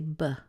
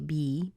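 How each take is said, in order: First: The vowel in be is reduced to a schwa. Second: The vowel in be is a full ee sound. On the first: "more commonly they're going to say b, which gives us that schwa" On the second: "somebody might say be"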